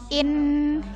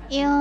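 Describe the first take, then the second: First: The n is pronounced as a clear n sound. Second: The n is hidden in a blurred nasal sound. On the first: The speaker calls it wrong. "bukan in, itu salah" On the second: The speaker calls it right. "dibacanya secara samar-samar"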